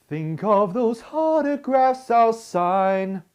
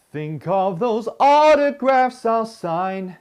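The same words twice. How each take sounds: First: Sung with an H before "autographs", like "hautographs"; breathy H onset. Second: Sung with a clean vowel onset on "autographs". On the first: Retold or imitated. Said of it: "she was putting a H in front of the vowel". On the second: Shown as a demonstration. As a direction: sing "autographs" straight into the vowel, no H. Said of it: "The phrase goes like this".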